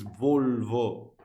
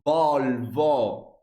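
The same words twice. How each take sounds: First: The vowel is pronounced less open, Finnish-style. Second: The vowel is pronounced more open, Italian-style. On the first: "while in Finnish it's Volvo" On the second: "In Italian, we tend to, I guess, um, open more the vowel when we say Volvo"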